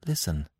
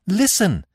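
First: Softer, low first listen; soft call. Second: Cried out. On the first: Devi first catching the trumpets, a soft Listen. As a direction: hush the word Listen, barely voiced. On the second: Devi hearing the trumpets, crying Listen aloud. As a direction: call Listen out sharply. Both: Acted. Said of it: "she cried".

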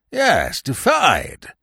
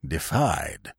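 First: "defied" repeated firmly, with raised voice; overwrought old man. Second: Low, soft "defied" after a pause; overwrought old man. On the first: Old uncle insisting he was defied, overwrought and emphatic. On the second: Old uncle complaining to Wooster, low and overwrought. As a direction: let the word sink out, quietly overwrought. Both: A narrator's reading. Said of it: "in a rather overwrought way".

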